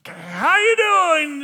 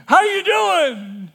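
First: Slow, loud and high, with the weight on YOU; How YOU doing, drawn out slow and loud; hopeful repeat. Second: Loud, high and slow, HOW leaning hard; slow, high, loud call with the weight on HOW; cheerful shout. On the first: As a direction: try the greeting once more into the silence. Repeating greeting into silence. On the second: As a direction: call the greeting out to thousands. Greeting huge crowd. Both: Acted.

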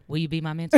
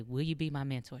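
First: Loud, announced question after a throat clear; put-on big ask, much louder; mock-formal request. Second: Said in the usual way. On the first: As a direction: pop the question loudly, imitating an eager mentee. Mentee asks after clearing throat.

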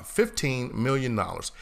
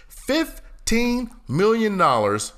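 First: Said in the usual way. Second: Drawn out, high and slow; incredulous. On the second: Acted. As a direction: stretch it in disbelief.

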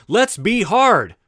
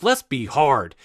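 First: Slower, with "hard" leaned on and held; "hard" drawn out and emphasized; stress on hard. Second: Said in the usual way. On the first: Shown as a demonstration. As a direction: press the word "hard" firmly. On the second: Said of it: "Let's be honest".

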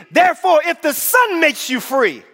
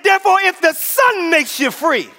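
First: High proclamation, slowing to the end; emphatic preaching. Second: High, forceful preacher's declaration; insistent repeated proclamation. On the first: Preacher declaring freedom to the church, emphatic preaching. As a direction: proclaim it high, drawing out the last words. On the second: Preacher repeating the verse to rouse church, insistent proclamation. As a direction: drive it home, high all through. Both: Real, not acted. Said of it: "I said".

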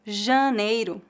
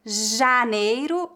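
First: Janeiro with a nasal "ã" before the n, said slowly; slow, careful janeiro opening on "jã"; nasalized first vowel. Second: Janeiro with an open, oral "a", said slowly; slow, careful Janeiro, first syllable kept oral; oral first vowel. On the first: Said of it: "a nasalização varia de acordo com o sotaque". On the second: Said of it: "exemplos de variações de sotaque". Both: Shown as a demonstration.

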